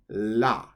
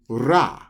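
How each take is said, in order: First: The syllable starts with an L-like sound. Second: The syllable starts with an R-like sound.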